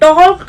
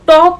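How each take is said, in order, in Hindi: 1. L की ध्वनि बोली जाती है। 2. L की ध्वनि मौन है। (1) "टॉक नहीं पढ़ रहे हैं" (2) "तो हम टॉक पढ़ रहे हैं"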